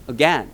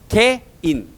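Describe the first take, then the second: First: It is said the English way, as 'a-gen'. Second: It is said Korean-style as two syllables, 'gae-in'. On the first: The speaker calls it right. "again 이렇게 발음하는 거지" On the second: The speaker calls it wrong. "우리가 많이 틀리는 발음이 이거야. 우리끼리는 뭐라고 발음해?"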